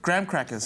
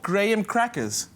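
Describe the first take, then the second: First: It is said in an American accent. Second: It is said in a South African accent.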